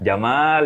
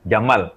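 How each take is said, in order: First: The vowel in the word is said long. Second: The vowel in the word is said short. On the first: It is a person's name. "Jamal yang panteng nama orang" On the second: It means camel. "Jamal yang pendek itu unta"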